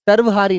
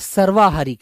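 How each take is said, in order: First: The vowel after 'sarv' is short. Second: The vowel after 'sarv' is long. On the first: The speaker calls it wrong. "सर्वहारी नहीं बेटा" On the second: The speaker calls it right. "सर्वाहारी कहिएगा"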